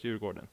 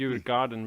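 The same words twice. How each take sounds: First: The vowel in the middle sounds like 'o'. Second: The vowel in the middle sounds like 'a'. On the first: The speaker calls it right. "but it's" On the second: The speaker calls it wrong. "some people maybe say"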